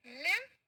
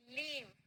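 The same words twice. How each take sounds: First: लिव with a short i and rising tune; short-i live. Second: लीव softer, with long ee; long-ee leave. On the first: Teacher repeating the vowel contrast, लिव with short i. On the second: Teacher repeating the vowel contrast, लीव with long ee. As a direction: let the ee of लीव stretch, falling away. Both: Shown as a demonstration. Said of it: "बड़ी ई छोटी ई होता है".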